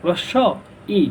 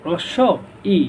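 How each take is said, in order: Both takes have the same delivery.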